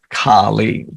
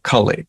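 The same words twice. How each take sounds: First: Both vowels are long. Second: Both vowels are short. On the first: It names the dreadful form of the goddess. "with the long A and the long I" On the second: It names the age and its personification. "today we're talking about Kali"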